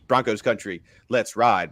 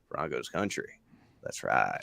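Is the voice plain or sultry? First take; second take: plain; sultry. First: It is said in a plain, ordinary voice. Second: It is said in a sultry, seductive voice.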